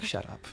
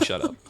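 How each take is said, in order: First: Said in the usual way. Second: "Shut up." raised much higher but soft. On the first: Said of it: "he's like". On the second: Retold or imitated. Officer silencing the traveller again, higher-pitched command. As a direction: lift "Shut up." high in pitch. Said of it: "Told me".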